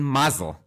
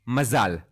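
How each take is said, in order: First: The word is given an American pronunciation. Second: The word is given a Hebrew pronunciation.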